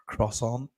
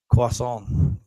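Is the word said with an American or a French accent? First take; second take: American; French. First: It is said in an American English accent. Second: It is said in a French accent, without an R. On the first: "in like uh, U S English they say croissant" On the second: "in French you don't pronounce the R"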